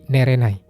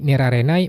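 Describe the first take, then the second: First: The ra syllable is left out. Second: The ra syllable is pronounced. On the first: "ra-nya dihilangin" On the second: "harusnya nerarenai"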